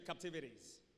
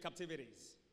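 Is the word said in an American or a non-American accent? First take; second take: American; American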